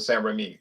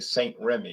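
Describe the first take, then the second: First: The name is said with French pronunciation. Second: The name is said with English pronunciation. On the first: This is how the makers say it. "They pronounce it Saint Remy" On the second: This is how English speakers say it. "In English, we're English. We say Saint Remy"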